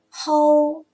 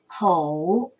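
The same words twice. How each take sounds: First: The syllable has a high level tone. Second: The syllable has a low dipping tone. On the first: "一声吼" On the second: "三声吼"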